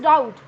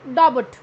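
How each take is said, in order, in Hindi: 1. b की ध्वनि silent है। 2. b की ध्वनि बोली जाती है। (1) "दिस इज डाउट" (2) "नॉट डाबट"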